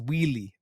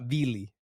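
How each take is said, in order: First: The word begins with a W sound. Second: The word begins with a V sound. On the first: The speaker calls it right. "It's wheelie, like a W" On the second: The speaker calls it wrong. "It's not Vili"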